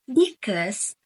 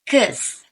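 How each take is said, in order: First: The first-syllable vowel is fully pronounced. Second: The first-syllable vowel is dropped entirely.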